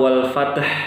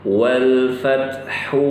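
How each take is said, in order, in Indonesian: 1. Kata berakhir mendadak pada konsonan. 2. Kata berakhir dengan vokal u pendek. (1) "Wal fath ini salah" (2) "cara bacanya ketika wasal"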